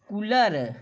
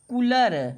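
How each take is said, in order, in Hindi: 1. पहला स्वर छोटा सुनाई देता है। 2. पहला स्वर छोटा सुनाई देता है।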